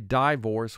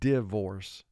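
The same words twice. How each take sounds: First: The first vowel is a long I sound. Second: The first vowel is a short I sound. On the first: The speaker calls it wrong. "We don't say divorce" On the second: The speaker calls it right. "I here is representing its short sound"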